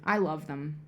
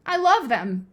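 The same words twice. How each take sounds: First: Said in the usual way. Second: Loud, higher burst of devotion; punched-up insistent repeat; emphatic declaration. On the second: Real, not acted. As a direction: declare it loudly, with conviction. Emphatic repeat of the same words.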